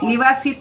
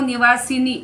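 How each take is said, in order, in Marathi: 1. शब्द 't' आवाजाने संपतो. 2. शब्द 'ni' आवाजाने संपतो.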